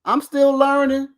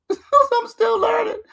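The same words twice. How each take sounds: First: Said in the usual way. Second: High, slow fake sob through laughter; hammed-up teary whine, laughing; mock crying. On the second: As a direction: whimper it like a mock cry, high and drawn out.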